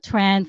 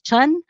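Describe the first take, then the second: First: The name is said the North American way. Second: The name is said the Vietnamese way. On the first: "how we say in North America" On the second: "in Vietnamese is pronounced as Chun"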